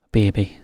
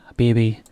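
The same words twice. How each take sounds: The two takes are said the same way.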